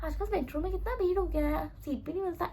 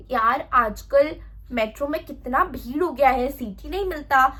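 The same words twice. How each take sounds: First: Soft, offhand casual remark. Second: Slow, drawn-out dramatic complaint. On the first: Right way to open small talk on the metro, casual. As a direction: toss it out quietly, nothing dramatic. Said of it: "एकदम general बोलना है". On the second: Wrong way to open small talk on the metro, dramatic. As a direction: overplay the complaint, stretching it out. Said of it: "ऐसे dramatic वे में नहीं बोलना है". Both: Shown as a demonstration.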